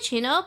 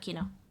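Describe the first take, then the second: First: The syllable begins with a 'ch' sound. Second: The syllable begins with a 'k' sound. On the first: "I say Chino" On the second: "instead of Kino"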